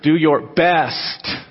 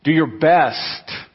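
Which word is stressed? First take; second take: best; best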